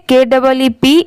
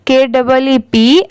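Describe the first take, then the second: No difference in how they are said.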